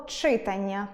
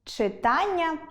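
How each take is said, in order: First: «читання» stressed on the first syllable CHY; CHY-tannia, front-stress «читання»; wrong stress. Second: Said in the usual way. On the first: Shown as a demonstration. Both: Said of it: "буде читання".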